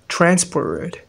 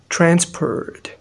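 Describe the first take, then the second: No difference in how they are said.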